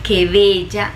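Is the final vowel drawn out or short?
short. The final vowel is short and plain. It sincerely praises the person's beauty. "está resaltando la belleza de esa persona"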